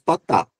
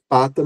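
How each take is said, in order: First: The stress is on the last syllable. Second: The stress is on the first syllable. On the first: The speaker calls it wrong. "não dizemos patá" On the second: The speaker calls it right. "nós dizemos pata"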